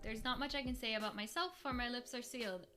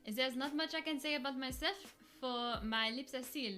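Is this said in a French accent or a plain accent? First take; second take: plain; French. First: It is said in the speaker's ordinary accent. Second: It is said in a put-on French accent.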